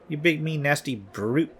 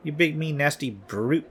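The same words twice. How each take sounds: First: The word brute is strongly stressed. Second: The same.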